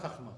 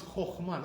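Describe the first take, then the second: First: Chachma with open ah first, lower; kamatz as a. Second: Chokhmah with rounded oh first; kamatz as o. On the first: Teacher dismissing the wrong form, chachma with ah. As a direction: say chachma as khakh-MAH, dropped in pitch. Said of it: "not chachma". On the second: Teacher giving the rule's result, chokhmah with o. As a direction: say chokhmah as khokh-MAH. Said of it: "therefore it becomes chokhmah". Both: Shown as a demonstration.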